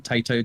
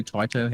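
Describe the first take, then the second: First: Taito said as TAY-toe; TAY-toe pronunciation. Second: Taito said as TIE-toe; TIE-toe pronunciation. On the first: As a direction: say Taito with an "ay" first vowel, like "tay". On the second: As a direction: say Taito with an "eye" first vowel, like "tie". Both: Shown as a demonstration. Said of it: "however you say it".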